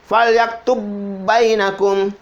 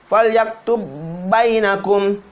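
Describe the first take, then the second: No difference in how they are said.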